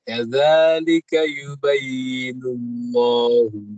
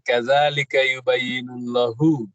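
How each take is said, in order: First: The lam is heavy and its vowel is long. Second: The lam is light and its vowel is short. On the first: The speaker calls it right. "ditebalkan lamnya. Kemudian dipanjangkan dua harokat" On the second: The speaker calls it wrong.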